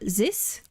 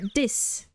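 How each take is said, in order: First: It begins with a buzzing z sound. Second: It begins with a hard d sound. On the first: "like a soft S or a Z" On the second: "other people will pronounce it like a D"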